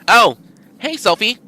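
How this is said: It is spoken in a high-pitched voice. "give him a high pitched voice"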